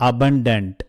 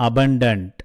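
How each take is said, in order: Both takes have the same delivery.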